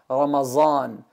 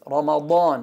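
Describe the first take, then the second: First: The middle consonant is a plain z sound. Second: The middle consonant is not a plain z sound. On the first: The speaker calls it wrong. "we don't say za" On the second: The speaker calls it right. "it's Ramadan"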